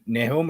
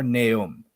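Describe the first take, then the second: First: "Nahum" as NAY-hoom, with audible h; first pronunciation attempt. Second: "Nahum" as NAY-um, h dropped; second pronunciation attempt. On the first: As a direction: say "Nahum" with a clear h in the middle. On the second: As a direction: say "Nahum" with a silent h. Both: Shown as a demonstration. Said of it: "Is it Nahum or Nahum".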